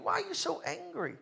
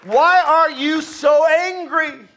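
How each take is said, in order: First: Hushed, high-pitched question; soft puzzlement. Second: Slow, high, raised-voice demand; loud challenge. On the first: Preacher wondering at forgiven Christians, soft puzzled question. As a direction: ask it very softly, pitched up. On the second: Preacher confronting frustrated churchgoers, loud slow challenge. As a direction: call it out slowly, louder and higher. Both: Acted.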